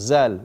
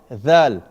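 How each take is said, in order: First: It begins with a z sound, tongue kept inside. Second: It begins with a th sound, tongue between teeth. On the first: The speaker calls it wrong. "Don't say zal. Eh? Zal is totally wrong" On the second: The speaker calls it right. "because the tongue has to go out"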